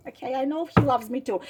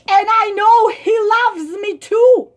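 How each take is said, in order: First: Fast, much softer, flat repeat; deadpan scorn. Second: Raised, louder mimic; mock lovesick voice. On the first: Real, not acted. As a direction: mutter it back in disgust. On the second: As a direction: sing her line back mockingly. Mock voice of writer.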